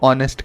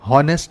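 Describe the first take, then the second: First: The word begins with a vowel sound. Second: The word begins with an h sound. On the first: The speaker calls it right. "हम उसको ऑनेस्ट कहते हैं" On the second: The speaker calls it wrong. "हॉनेस्ट नहीं कहते हैं"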